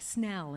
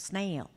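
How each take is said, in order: First: The vowel is a short 'eh' sound. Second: The vowel is a long 'ay' sound. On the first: The speaker calls it right. "make it more like Snell" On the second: The speaker calls it wrong. "instead of Snail"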